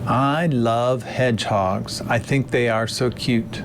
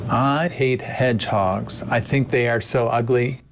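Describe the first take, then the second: First: Played-back lecture audio; recorded original. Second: Synthetic cloned voice; manipulated clip of his voice; deepfake audio. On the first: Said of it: "Travis will play the original audio". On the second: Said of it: "play the manipulated one again". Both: Shown as a demonstration.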